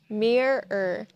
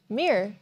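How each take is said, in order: First: The word has two clear, separate syllables. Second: The word is said quickly, syllables run together. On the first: "The first way is with two syllables" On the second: "when you speak really fast"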